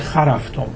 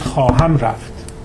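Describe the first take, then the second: First: The verb phrase is shortened into one word. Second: The verb phrase is said in its full two-word form. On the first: "تربتی میگه" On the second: "طور رسمی شما میگید"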